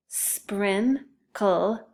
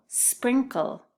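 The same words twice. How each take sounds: First: SPRINKLE in two separate beats, SPRIN, pause, KLE; split into syllables. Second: Said in the usual way. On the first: Shown as a demonstration. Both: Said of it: "listen closely to those syllables".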